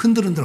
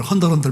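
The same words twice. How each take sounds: First: Said in the usual way. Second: "헌들헌들" with eo replacing the eu vowel; Gyeongsang dialect pronunciation. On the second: Shown as a demonstration. Preacher mimics Gyeongsang speakers, "헌들헌들" with eo for eu. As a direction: open heun to heon in "헌들헌들". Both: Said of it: "우리 경상도는 뭐라 그래?".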